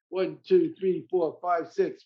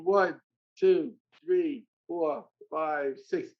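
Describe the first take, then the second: First: It is counted as fast as possible. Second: It is counted a little faster.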